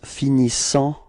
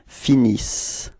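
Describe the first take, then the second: First: The word ends in a nasal vowel. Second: The word ends in an s sound. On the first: The speaker calls it wrong. "a quite common mistake" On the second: The speaker calls it right. "this E N T is not really pronounced"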